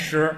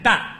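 First: The syllable is pronounced shi. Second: The syllable is pronounced dan. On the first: This is the ordinary reading of the character. "不念石" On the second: This reading is used when weighing grain. "在称粮食的时候 不念石， 念 担，"

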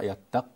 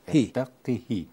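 First: The q sound has no vowel after it. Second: The q sound is followed by an i vowel. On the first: This is a lightened form used in the recitation. "أما هذه تقرأ يتق، بتسكين" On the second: This is the regular expected form. "القياس بكسر القاف"

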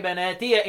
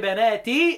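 First: The final ya is voiced with an a vowel. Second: The final ya is silent, ending in long ee. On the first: This is one reciter's reading. "مين اللي بيفتح بناتي من ياء الإضافة؟ ... يبقى الهمزة رمز نافع" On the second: This is the other reciters' reading. "وبيت القراء يقول"

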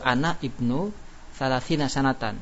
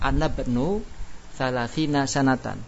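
First: Ana and ibnu are said as separate words. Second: Ana and ibnu are joined into anabnu. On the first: This is the underlying form. "Itu ana ibnu asalnya gitu" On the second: This is how it is actually read. "Namun dibaca wasol"

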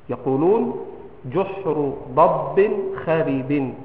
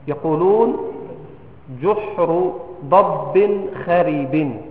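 Both takes have the same delivery.

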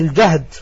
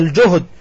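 First: The first vowel is an 'a' sound. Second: The first vowel is a 'u' sound. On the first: "كلاهما صحيح بالفتح" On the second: "وبالرفع"

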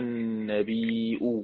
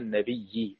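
First: The hamza glottal stop is pronounced near the end. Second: The hamza becomes a doubled y sound. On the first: "يعني إيه تحقيق الهمزة؟ يعني يقول النبي" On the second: "إبدال الهمزة ياء مع إدغامها في كلمة النبي"

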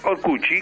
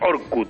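First: Portuguese pronunciation, ending in a 'chee' sound. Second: Spanish pronunciation, ending in a plain 't'. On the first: "Se pronuncia en portugués Orcuchi" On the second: "Esto es Orkut en español"

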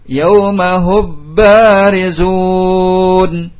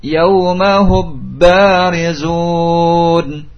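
First: The m is fully merged into the b. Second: The m is fully merged into the b.

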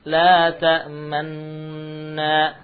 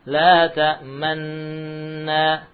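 Both takes have the same delivery.

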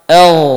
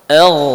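No difference in how they are said.

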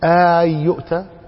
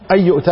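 First: The opening vowel is drawn out long. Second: A single short hamza opens the phrase. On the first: It is a rebuking question. "أو اعتبرها مد" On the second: It is a plain statement. "على ظاهرها كما هي هنا"

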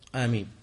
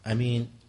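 First: The first vowel is drawn out long. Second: The first vowel is short, without lengthening.

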